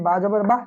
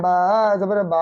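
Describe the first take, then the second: First: বা জবর বা with each বা kept short; short vowel. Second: বা জবর বা with both বা vowels stretched long; drawn-out vowel. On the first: Teacher demonstrating the correct quick reading, short বা. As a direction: say বা জবর বা promptly, no stretch on the vowel. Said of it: "তাড়াতাড়ি হলো". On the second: Teacher showing the mistaken delayed reading, long drawn বা. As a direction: drag out the aa in each বা of বা জবর বা. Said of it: "দেরি হলো না? ... টানা হয়ে যাবে". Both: Shown as a demonstration.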